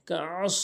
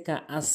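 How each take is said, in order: First: কাআস with a squeezed mid-throat ain; correct ain. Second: কাআস with a plain glottal catch; hamza for ain. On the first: Teacher modelling the word, throaty কাআস. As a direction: press the middle of কাআস in the throat. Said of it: "এখানে আইনের উচ্চারণ করতে হবে". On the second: Teacher showing what many say, plain কাআস. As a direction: say কাআস lightly, no throaty ain. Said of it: "অনেকে কাআস বলে". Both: Shown as a demonstration.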